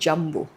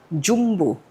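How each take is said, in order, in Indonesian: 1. Diucapkan dengan lafal gaya Inggris. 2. Diucapkan dengan lafal Indonesia. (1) "jangan panggil film ini Jumbo" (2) "Ini adalah film Indonesia, Jumbo. Inilah cara kita melafalkan Jumbo"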